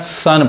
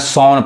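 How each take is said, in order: First: The vowel sounds like 'uh'. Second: The vowel sounds like 'aw'. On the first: The speaker calls it right. "सन पढ़ाएगा" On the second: The speaker calls it wrong. "ना सौन पढ़ाएगा"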